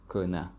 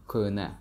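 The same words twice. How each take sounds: The two takes are said the same way.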